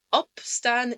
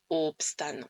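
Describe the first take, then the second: First: "opstaan" with a short, open O at the start. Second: "opstaan" with a long, rounded French-like O; wrong long O. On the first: Teacher showing learners the right way, short O. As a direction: say "opstaan" opening on a brief open "o". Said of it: "c'est pour ça qu'on dit". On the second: Teacher showing what not to say, wrong long O. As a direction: say "opstaan" stretching a closed "oo" at the start. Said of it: "et pas opstaan". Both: Shown as a demonstration.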